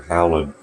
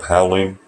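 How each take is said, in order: First: Howlin' ending in a plain n, no ng; Howlin', finishing on "lin"; dropped G. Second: Said in the usual way. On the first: Shown as a demonstration. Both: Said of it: "no G there".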